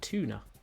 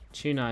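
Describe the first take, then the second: First: It is said in a posh British accent. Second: It is said in a plain British accent.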